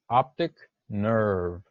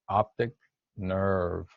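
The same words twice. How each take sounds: First: Optic nerve slow, in one phrase; pronunciation model. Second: Optic, short pause, then nerve; careful pronunciation model. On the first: Teacher models optic nerve for the class, slow pronunciation model. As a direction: sound out optic nerve slowly. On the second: Teacher asks class to listen carefully, word-by-word pronunciation model. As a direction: separate optic from nerve, lifting optic slightly. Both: Shown as a demonstration. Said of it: "Listen carefully".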